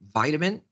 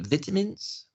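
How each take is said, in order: First: It is said in an American accent. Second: It is said in a British accent. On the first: "vita, I, I, I, vitamin" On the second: "In British, we would say vitamins"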